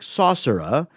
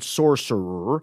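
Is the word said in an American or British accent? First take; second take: British; American. First: British accent, with the final R left open. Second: American accent, with the final R clamped hard. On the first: "The British style is to open up that last R" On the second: "The American style is to clamp down hard"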